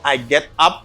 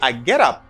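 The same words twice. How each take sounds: First: The words are separate with a clear t. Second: The words are linked with a quick d. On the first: The speaker calls it wrong. "Instead of saying" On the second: The speaker calls it right. "I got a linking here. And I use the flat D"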